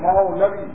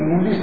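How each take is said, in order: First: The middle 'v' sound is clearly pronounced. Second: The middle 'v' sound is dropped from the word. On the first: It means one who belongs to the Lord. The speaker calls it right. "لفظ سن صحیح کر لو، لفظ کیا ہے؟ مولوی" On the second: It sounds like the word for radish. The speaker calls it wrong. "ذرا مولی کا تلفظ سنو، کہتے ہیں دلی سے کہ مولی صاحب آئے ہیں"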